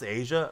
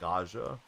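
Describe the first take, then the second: First: The name sounds like the word Asia. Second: The name sounds like Ah-ja, read from spelling. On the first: The speaker calls it right. "It's pronounced Asia" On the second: The speaker calls it wrong. "I always thought it was like Aja because that's how I read it"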